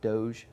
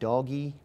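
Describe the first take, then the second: First: The word ends with a soft 'j' sound. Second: The word ends with an 'ee' vowel sound. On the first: "Wikipedia tells me it's pronounced Doge" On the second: "some people pronounce that doggy"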